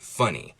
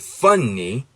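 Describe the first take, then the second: First: The N sound is short. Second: The N sound is held long. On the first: "we usually say that with one N" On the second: "if I lengthened it"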